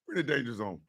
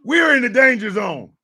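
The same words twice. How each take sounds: First: Very low and soft; hushed warning. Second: Loud proclamation. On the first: Warning the audience of danger, low and hushed. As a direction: drop it right down under your breath. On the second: Warning the audience of danger, loudly proclaimed. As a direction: belt out the warning. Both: Acted. Repeats catchphrase low, then loud.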